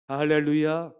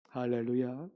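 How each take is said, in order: First: Much louder hallelujah call; shouted hallelujah. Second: Said in the usual way. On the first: Real, not acted. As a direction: call it out to stir the church. Preacher calls hallelujah louder.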